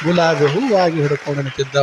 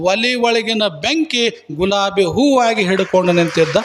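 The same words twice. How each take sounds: First: Lower, hushed wonder on ಹೂವಾಗಿ; awed repeat. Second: Said in the usual way. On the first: A narrator's reading. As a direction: savour the miracle, pitch dropped low. (ಆಶ್ಚರ್ಯದಿಂದ ತಗ್ಗಿದ ಧ್ವನಿಯಲ್ಲಿ)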